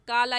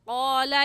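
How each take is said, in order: First: It starts with a plain front k sound. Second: It starts with a deep back q sound. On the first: The speaker calls it wrong. "क़ाफ की जगह काफ पढ़ जाते हैं और काला या कौमी कह जाते हैं, जो कि गलत है" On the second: The speaker calls it right. "और सही क्या है?"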